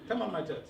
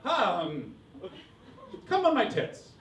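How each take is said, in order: First: It is said in a plain, ordinary voice. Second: It is said like a charming nineties politician.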